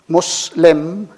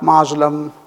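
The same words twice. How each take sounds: First: The middle consonant is a hissing s. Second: The middle consonant is a buzzing z. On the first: The speaker calls it right. "again the C S sound" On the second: The speaker calls it wrong.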